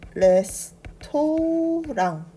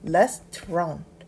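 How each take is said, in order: First: It is said with Korean-style syllables and vowels. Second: It is said with a native English pronunciation. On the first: "우리가 한국어로는 레스토랑 이라고 읽지만" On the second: "실제 영어 발음은요"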